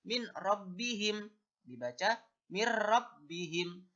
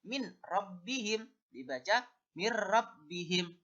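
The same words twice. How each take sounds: The two takes are said the same way.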